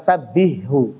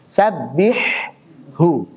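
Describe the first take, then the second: First: The two H sounds merge into one. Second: Both H sounds are pronounced clearly. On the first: The speaker calls it wrong. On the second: The speaker calls it right.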